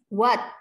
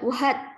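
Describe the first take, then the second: First: No h sound is pronounced in the word. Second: An h sound is pronounced in the word. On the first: The speaker calls it right. "Hanya tidak usah dibaca" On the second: The speaker calls it wrong. "tidak what"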